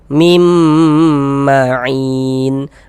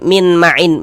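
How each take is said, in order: First: The n merges into a long, held nasal m. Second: The first word ends with a clear n sound. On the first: The speaker calls it right. "suaranya itu kita tahan, kita panjangkan sejenak sepanjang dua harokat. Mim" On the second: The speaker calls it wrong. "Jangan dibaca min min ma'in min, jangan dibaca min"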